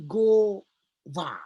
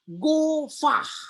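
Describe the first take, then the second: First: The word ends on the vowel with no h. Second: The word ends with an audible h sound. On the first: The final letter has no mappiq dot. "Kalau tidak ada mafik, maka dia menjadi gova" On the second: The final letter carries a mappiq dot. "karena ada mapik, maka dia ada H"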